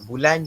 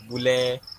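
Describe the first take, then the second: First: The word ends with a clear N sound. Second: The final N drops, ending in a vowel.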